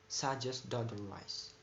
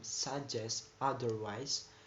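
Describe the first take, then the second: First: The two words run together in rapid speech. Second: The two words are said separately and carefully. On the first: "in rapid speech it becomes"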